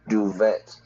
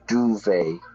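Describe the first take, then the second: First: The final T is sounded. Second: The final T is silent. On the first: The speaker calls it wrong. "not duvet" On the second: The speaker calls it right. "we don't pronounce the T"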